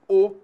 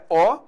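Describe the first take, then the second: First: The vowel is pronounced closed, with a higher tongue. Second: The vowel is pronounced open, with a low tongue. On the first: "o timbre fechado" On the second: "o timbre aberto"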